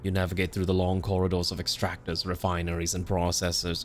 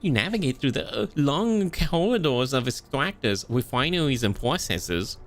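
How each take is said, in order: First: It is said in a dark, ominous voice. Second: It is said in a cute uwu voice.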